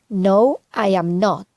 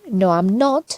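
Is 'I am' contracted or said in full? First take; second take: full; contracted. First: I am is said as two full words. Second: I am is contracted into one syllable. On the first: It adds force and emphasis. "podemos decir" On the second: It is casual everyday speech. "en lugar de decir"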